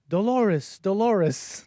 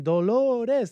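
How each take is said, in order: First: Dolores as an English name, American r; English name pronunciation. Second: Dolores in Spanish, tapped r, drawn out high; Spanish devotional cry. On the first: Shown as a demonstration. Host mock-calling the maid, anglicized "Dolores". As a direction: call "Dolores" the American way, falling. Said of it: "they're not calling the name of, of the maid". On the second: Retold or imitated. Host showing what the man calls Mary, fervent Spanish pronunciation of "Dolores". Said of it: "He's saying".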